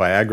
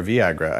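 First: "Viagra" with first syllable rhyming with "eye"; VYE-agra pronunciation. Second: "Viagra" with first syllable rhyming with "see"; VEE-agra pronunciation. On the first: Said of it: "I still can't even say". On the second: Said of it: "no idea how you say that". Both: Shown as a demonstration.

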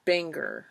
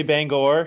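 First: "Bangor" with weak final syllable, like BANG-er; "Bangor" ending in a reduced -er; tentative pronunciation of Bangor. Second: "Bangor" with full final vowel, BANG-gore; "Bangor" with a clear -gor, not -ger; local pronunciation of Bangor. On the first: Real, not acted. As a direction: say "Bangor" to rhyme with hanger. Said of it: "Is that how you say it?". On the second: Shown as a demonstration. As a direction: say "Bangor" ending like the word gore. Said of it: "most people around here say Bangor".

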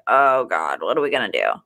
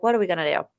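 First: Dropped much lower, hammed-up dread; mock panic. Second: Said in the usual way. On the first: Host retelling lost plane seats, mock despairing, low. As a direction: groan it out low like doom is coming. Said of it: "And we're like". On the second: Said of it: "So we're like".

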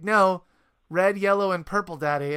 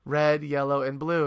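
First: Higher, louder mock child correction; imitating insistent son. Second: Said in the usual way. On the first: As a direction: play a small boy correcting Dad, easing off at the end. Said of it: "And he was like".

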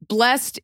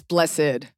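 First: "Blessed" as "blest"; short "Blessed", ending in a T; one syllable. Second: "blessed" as "bless-ed"; low "blessed" in two syllables. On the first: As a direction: say "Blessed" with a silent second E. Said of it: "Blessed is something that happened". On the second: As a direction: say "blessed" with its ending sounded. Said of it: "is it blessed or blessed?". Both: Shown as a demonstration.

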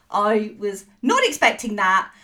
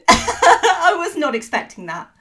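First: Said in the usual way. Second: Laughing through the words; cracking up mid-sentence. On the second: Real, not acted. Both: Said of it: "I think I've broken him".

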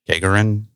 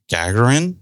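First: "Gagarin" with a long a, as in "gate"; alternative pronunciation. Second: "Gagarin" with a short flat a, as in "gag"; unsure pronunciation. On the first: Podcaster unsure of the cosmonaut's surname, trying an alternative pronunciation. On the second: Podcaster trying out the cosmonaut's surname, unsure pronunciation. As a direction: say "Gagarin" as GAG-er-in, slightly raised. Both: Shown as a demonstration. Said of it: "Not sure how you pronounce it".

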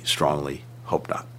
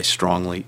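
First: Strongly hope not, dropped to a soft slow whisper. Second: Said in the usual way. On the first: Real, not acted. Official answering the interviewer about next year, in a whisper. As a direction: let the words sink into a whisper of hope. Repeated hope, voice fading away.

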